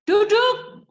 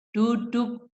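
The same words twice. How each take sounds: First: High, loud yelled order; shouted command. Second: Firm, controlled one-word command; firm, not shouted. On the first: Teacher showing parents what is no longer firm, shouting "sit" high and loud. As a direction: yell it sharply, well above talking pitch. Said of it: "itu nggak tegas lagi". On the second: Teacher showing parents a firm "sit" for a child, firm and controlled. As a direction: say it firmly without raising a shout. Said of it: "Tegas itu bukan berteriak. Jadi umpamanya gini". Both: Shown as a demonstration.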